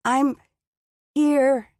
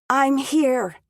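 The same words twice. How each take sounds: First: Weak, slurred words. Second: Higher, louder, a clearer try. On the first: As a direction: mumble like a half-frozen woman. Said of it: "The words sounded so garbled". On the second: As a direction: force the words out clearly. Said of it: "That was better". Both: Acted.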